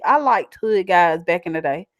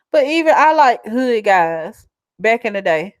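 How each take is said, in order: First: "liked" said with a clear final T sound; stressed past tense. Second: "like" said without the final D sound. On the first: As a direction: land the ending of "liked" crisply. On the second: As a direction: say "like" with no past-tense ending. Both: Shown as a demonstration. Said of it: "liked with an E D".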